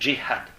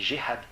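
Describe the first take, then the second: First: The word starts with a hard 'dj' sound. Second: The word starts with a soft 'j' sound. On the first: This is the North African pronunciation. "En maghrébin, on dit dj" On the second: This is the literary Arabic and Levantine pronunciation. "ça se prononce j, donc on dit jihad"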